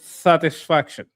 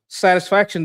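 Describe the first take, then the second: First: The s sounds are said like th. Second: The s sounds are plain s sounds. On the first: "they would say satisfaction" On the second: "if you're saying satisfaction"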